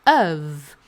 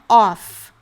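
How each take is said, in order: First: The vowel is a short, closed 'uh' sound. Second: The vowel is a more open 'o' sound. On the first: The speaker calls it right. "é of" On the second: The speaker calls it wrong. "Também não é off"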